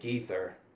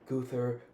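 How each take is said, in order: First: The vowel after the G sounds like 'ee'. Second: The vowel after the G sounds like 'uh'. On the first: The speaker calls it right. "with that last name" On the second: The speaker calls it wrong. "people would say Guther"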